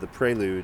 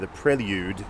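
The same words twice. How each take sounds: First: The title is said in a non-British accent. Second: The title is said in a British accent.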